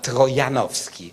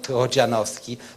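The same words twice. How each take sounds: First: The name is said with a Polish pronunciation. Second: The name is said with an English pronunciation. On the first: The speaker calls it right. "the proper pro Polish pronunciation is ... but" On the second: The speaker calls it wrong. "the proper pro Polish pronunciation is not"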